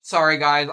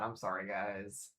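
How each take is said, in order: First: Apologizing with a mouth full; mouthful of food, quick sorry; chewing while talking. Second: Soft, slow, sheepish sorry; quiet apology. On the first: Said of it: "I'm trying to eat this as quiet as I possibly can". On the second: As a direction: mumble the apology, lower and slower. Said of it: "Flare point, I know, it's bad". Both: Real, not acted.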